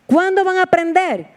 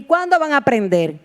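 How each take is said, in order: First: Exasperated rebuke. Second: Said in the usual way. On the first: Acted. Jesus rebuking his disciples, high exasperated repeat.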